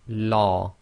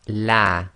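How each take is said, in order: First: The l is thick, with a full mouth. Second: The l is thin, with a light mouth. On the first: "heavy fashion, that is tafkhim, or full mouth ... as in the English word large" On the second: "as in the English word lamb"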